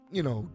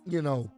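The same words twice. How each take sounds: The two takes are said the same way.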